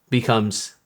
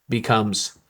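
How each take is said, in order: No difference in how they are said.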